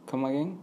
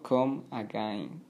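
First: "come again" linked as "kuh-muh-GEN", lifted at the end; correct pronunciation. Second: "come again" in separate slow words, ending "ah-gah-een"; wrong pronunciation. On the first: Teacher correcting learners' pronunciation, linked and questioning. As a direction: run "come again" together like a quick question. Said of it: "sino come again". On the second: Teacher warning learners how not to say it, mispronounced slowly. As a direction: mispronounce "come again" with a Spanish "gain" diphthong. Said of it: "no come again o come again". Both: Shown as a demonstration.

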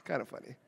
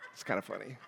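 First: "kinda funny" very quiet with a settled falling tune. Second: "kinda funny" with a very quiet rising tune. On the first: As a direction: drop "kinda" down to close the joke. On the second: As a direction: let "kinda" lift into a soft question. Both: Shown as a demonstration.

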